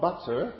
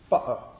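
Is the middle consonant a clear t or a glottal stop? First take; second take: clear t; glottal stop. First: The middle consonant is a clear t sound. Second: The middle consonant is a glottal stop. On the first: "what I use there is I use an alveolar plosive" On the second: "in certain parts of England... increasingly in Estuary English... I can say butter"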